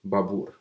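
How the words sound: The name is said with a Russian accent. "Russians say my name like Babur"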